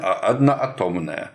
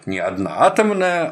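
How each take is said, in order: First: The stress falls on the 'a' syllable. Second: The stress falls on the 'to' syllable. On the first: It is the proper physics term for one-atom molecules. The speaker calls it right. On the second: It sounds like the word used for bombs or slang. The speaker calls it wrong.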